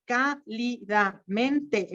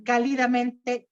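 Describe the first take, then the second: First: Cálidamente drawn out slowly, stress on CÁ; slow stress demo. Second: Said in the usual way. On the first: Shown as a demonstration. Teacher drawing out cálidamente for students, slow stress demo. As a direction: spell out cálidamente slowly, leaning on CÁ. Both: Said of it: "Se fijan, está en la cuarta sílaba".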